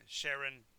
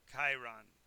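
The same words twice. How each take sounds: First: "Sharon" with SH, as in the English first name; Sh pronunciation. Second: "Chiron" begun with a hard K; "Chiron" with a K and a long I; hard K pronunciation. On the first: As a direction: say "Sharon" as SHARE-un. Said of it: "look at the pronunciation". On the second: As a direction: say "Chiron" as KY-ron. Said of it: "which way you look at the pronunciation". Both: Shown as a demonstration.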